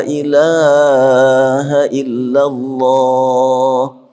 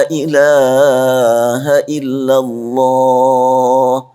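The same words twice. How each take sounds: The two takes are said the same way.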